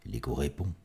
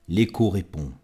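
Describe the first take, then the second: First: Softer, lower repeat of the line; hushed, dropped echo line; fading echo. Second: Firm, full-voiced echo line; recited line at full voice; first echo call. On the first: Acted. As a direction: let it come back as a distant echo. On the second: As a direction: sound the echo out clearly.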